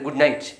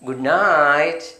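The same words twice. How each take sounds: First: The phrase is said short and clipped. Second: The phrase is said slowly and drawn out. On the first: The speaker calls it wrong. "അല്ലാണ്ട് good night കേൾക്കാൻ ഒരു ഭംഗിയില്ല" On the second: The speaker calls it right. "ഒന്ന് നീട്ടി പറയുക ... അങ്ങനെ പറഞ്ഞാൽ ഒരു ഭംഗി ഉണ്ടാവും"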